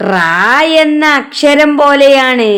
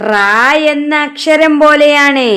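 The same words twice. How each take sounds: The two takes are said the same way.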